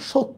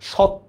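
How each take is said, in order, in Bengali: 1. প্রথম স্বরধ্বনিটি একটি বদ্ধ o ধ্বনি। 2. প্রথম স্বরধ্বনিটি একটি খোলা aw ধ্বনি। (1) "এই জন্য দেখেন এটা সত্য আমরা বলতেছি" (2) "না"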